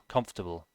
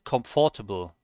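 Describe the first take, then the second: First: The middle 'or' is dropped entirely. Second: The middle 'or' is pronounced fully. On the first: The speaker calls it right. "They basically ignore the the O and the R in the middle" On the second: The speaker calls it wrong. "I said comfortable, comfortable, which is wrong"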